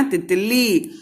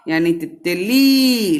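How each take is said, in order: First: Said in the usual way. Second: तितली with the ली stretched out long; slow तितली, drawing out the final ली. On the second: Shown as a demonstration. (तितली में ली को लंबा खींचकर बोलिए) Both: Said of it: "लंबा बोले हो ना".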